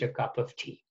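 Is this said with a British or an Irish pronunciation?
British. It is said with a British pronunciation. "for British English"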